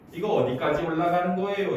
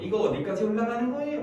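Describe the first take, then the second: First: It is said in a standard Korean accent. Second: It is said in a Busan accent.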